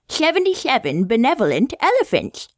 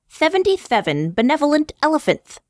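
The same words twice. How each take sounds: First: The s sounds have air escaping over the tongue's sides. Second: The s sounds are made with the tongue between the teeth. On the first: "with the lateral lisp" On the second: "with the interdental lisp"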